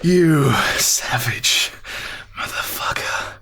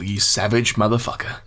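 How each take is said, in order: First: It is said slowly and seductively. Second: It is said at a normal pace.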